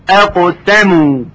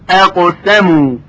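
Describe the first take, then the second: Both takes have the same delivery.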